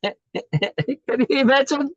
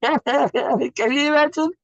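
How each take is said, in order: First: Very high, slow, laughing; laughing delight. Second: Very high and slow through laughter; laughing disbelief. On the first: Teacher laughing at grass blades wanting specialness. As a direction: giggle it out with wonder. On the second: Teacher repeating it, laughing at the absurd lawn. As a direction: let the laugh carry the question. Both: Real, not acted.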